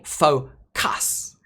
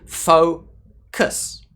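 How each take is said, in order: First: The second syllable is stressed with a full vowel. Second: Only the first syllable is stressed; the second is weak. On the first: The speaker calls it wrong. "I don't say focus. That would be very strange" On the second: The speaker calls it right. "the first sound is stressed, fo, and the second sound... is unstressed"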